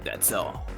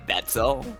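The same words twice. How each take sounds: First: It is said in a smug tone. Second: It is said in an angry tone. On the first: "Can you say it smugly?" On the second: "I said that in angry face instead of smug face"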